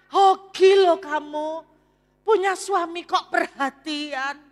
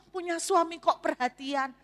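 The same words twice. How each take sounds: First: Loud, slow, gushing envious friend; a jealous friend gushing, much louder. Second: Said in the usual way. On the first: Retold or imitated. Friend envies the wife's doting husband, loud and gushing. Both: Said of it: "Anda tahu komentar temannya".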